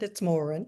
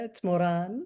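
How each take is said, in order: First: The name is said the Irish way. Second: The name is said the South American way.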